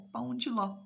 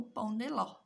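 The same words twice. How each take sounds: First: "de" softened to "dji", "pão dji ló"; alternative pronunciation. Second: "de" said with a clear plain d, "pão de ló"; first pronunciation. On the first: ("de" pronunciado como "dji", "pão dji ló") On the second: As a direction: say "pão de ló" with "de" as a crisp "de". ("de" pronunciado com d seco, "pão de ló") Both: Shown as a demonstration. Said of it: "como você preferir pronunciar".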